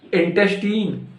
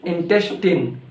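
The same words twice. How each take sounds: First: Put-on "Intestine" higher, ending in long TEEN; wrong INTESTINE. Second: "intestine" ending in short TIN; corrected INTESTINE. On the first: Teacher quizzing learners on "Intestine", higher in-tes-TEEN. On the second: Teacher correcting learners, "intestine" said as in-TES-tin. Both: Shown as a demonstration. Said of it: "No, it's not intestine".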